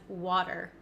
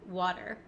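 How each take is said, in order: No difference in how they are said.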